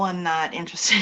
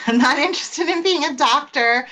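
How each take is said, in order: First: Said in the usual way. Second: Laughing through the words. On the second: Retold or imitated. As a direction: laugh while saying it. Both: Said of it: "so I always told my dad, like".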